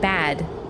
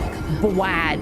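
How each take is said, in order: First: The b leads straight into the vowel. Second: A w-like glide follows the b sound. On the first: The speaker calls it right. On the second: The speaker calls it wrong.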